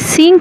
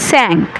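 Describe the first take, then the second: First: The vowel sounds like 'ee'. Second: The vowel sounds like 'a'. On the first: The speaker calls it wrong. "সিঙ্ক না হয়ে" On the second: The speaker calls it right. "উচ্চারণ হচ্ছে স্যাঙ্ক"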